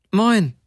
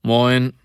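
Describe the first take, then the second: First: High, falling woman's greeting; high-pitched short hello; pitched higher. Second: Gruff, level stoker's greeting; rough-voiced short hello. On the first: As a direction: answer the hello in a much higher voice. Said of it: "zwei volle Töne höher". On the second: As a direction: greet curtly in a rough man's voice. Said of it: "eine ziemlich raue Stimme sagte". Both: A narrator's reading.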